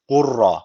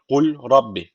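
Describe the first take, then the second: First: The l is dropped into a doubled r. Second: The l is pronounced clearly before the r. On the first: The speaker calls it right. "Şu cezimli lam hiç okunmuyor. Yani şu gu'yu direkt ra'ya bağlıyoruz. Ra şeddeli okunuyor" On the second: The speaker calls it wrong. "normalde böyle okunuyor gibi görünüyor"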